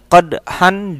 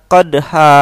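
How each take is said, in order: First: The word ends with an n sound. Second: The word ends with a long a vowel. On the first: "tulisan qadhan" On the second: "dibaca qadha"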